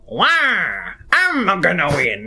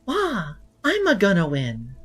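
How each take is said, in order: First: It is an impression of Waluigi. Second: It is an impression of Peach.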